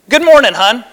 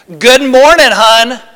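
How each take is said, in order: First: The greeting sounds warm and happy. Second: The greeting sounds cold and unhappy. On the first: The speaker is glad to see the other person. "oh, he's happy to see me, right? It's going to be a great day" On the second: The speaker is not glad to see the other person. "Those are very different"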